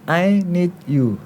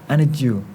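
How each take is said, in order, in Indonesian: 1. Kata 'I' diucapkan penuh. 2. Kata 'I' direduksi menjadi 'a' pendek. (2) "Yang awalnya I jadi A saja"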